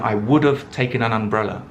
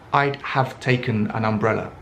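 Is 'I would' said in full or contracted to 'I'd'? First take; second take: full; contracted. First: 'I would' is said as two full words. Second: 'I would' is shortened to one syllable, 'I'd'.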